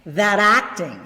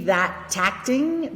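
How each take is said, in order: First: A soft D-like flap joins the two words. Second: A crisp, released T joins the two words. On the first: "I'm going to use the flap D sound" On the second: "Instead of the T, like the British T"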